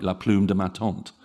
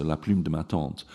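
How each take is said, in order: First: Plume said with English oo, tante with flat English vowels; La plume de ma tante in a heavy English accent; English-speaker mispronunciation. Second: La plume de ma tante with French u and nasal vowel; French pronunciation. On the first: Professor imitates English speakers mangling French. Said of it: "most English speakers would say something like". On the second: Professor models correct French phrase. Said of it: "two phonemes that are really hard". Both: Shown as a demonstration.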